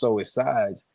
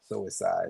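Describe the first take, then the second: First: The phrase is said slowly, words kept apart. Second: The phrase is said fast, words run together.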